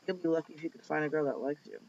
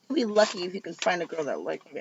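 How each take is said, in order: First: The line is muttered quietly under the breath. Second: The line is spoken out loud in full voice. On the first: The speaker calls it right. "He said the last part under his breath" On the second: The speaker calls it wrong. "not like this"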